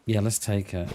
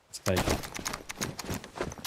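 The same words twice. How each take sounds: First: Said in the usual way. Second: Slow, sneaky whisper, much softer. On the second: Pretend. Gamer whispering to his squad about grabbing loot, slow sneaky whisper. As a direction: whisper it like a secret plan.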